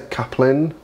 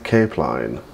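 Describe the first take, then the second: First: It is said as 'caplin', with a short first vowel. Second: It is said as 'cape line', with a long first vowel. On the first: This is how some other people say it. "some people say caplin" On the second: This is how the speaker usually says it. "but I say cape line"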